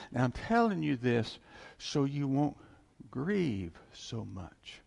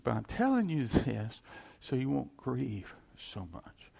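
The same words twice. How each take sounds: First: Gentle comfort. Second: The same consoling words, a bit quicker and less drawn out; plain comfort. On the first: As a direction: soothe a grieving crowd, slowly. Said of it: "And he says, that". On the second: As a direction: say it again, simply and steadily. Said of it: "he said". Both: Retold or imitated.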